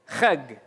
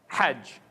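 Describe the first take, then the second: First: It starts with a rasping ch and ends in g. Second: It starts with a breathy h and ends in j. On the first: The speaker calls it wrong. "They pronounce this as a ch... they pronounce it as a g" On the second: The speaker calls it right. "pronounce the alphabet as it was originally pronounced"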